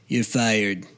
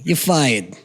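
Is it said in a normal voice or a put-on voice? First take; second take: put-on voice; normal voice. First: It is said imitating the president's voice. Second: It is said in his own normal voice.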